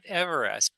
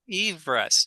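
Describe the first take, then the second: First: The first syllable sounds like 'ever'. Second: The first syllable sounds like 'eve'. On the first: The speaker calls it wrong. "not Everest" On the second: The speaker calls it right. "Eve Everest, per the pronunciation of the British surveyors"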